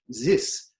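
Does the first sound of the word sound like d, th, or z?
z. It begins with a z-like sound. A speaker of German says it. "Germans will turn it into something more like a z"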